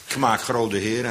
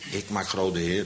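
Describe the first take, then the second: First: The first word is shortened to a bare k. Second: The first word ik is said in full. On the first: "Meestal korten we het nog af" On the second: "Zo'n klein woordje"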